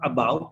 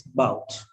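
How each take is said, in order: First: "about" with its A clearly said; full first syllable. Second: "bout" as one syllable; unstressed A dropped. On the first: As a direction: say both syllables, "a-BOUT". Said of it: "It's not about". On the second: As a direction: say "about" as just "bout". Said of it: "it's bout". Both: Shown as a demonstration.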